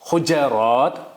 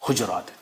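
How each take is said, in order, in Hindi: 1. j ध्वनि के बाद a स्वर आता है। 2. j ध्वनि के बाद कोई स्वर नहीं आता। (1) "फतह" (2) "जज़म"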